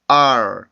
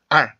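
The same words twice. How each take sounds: First: The vowel glides into a curled r sound. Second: A plain vowel with no r coloring. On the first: The speaker calls it right. "R 이렇게 혀가 움직이면서 만들어주는 공기 소리" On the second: The speaker calls it wrong. "우리나라처럼 R 이렇게 되지 않고"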